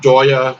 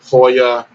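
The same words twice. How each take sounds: First: It starts with an English j sound, like joy. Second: It starts without an English j sound. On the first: "I pronounce it Joya ... because it just sounds like joy" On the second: "some people pronounce it Joya ... in Spanish, like the J's are sometimes silent"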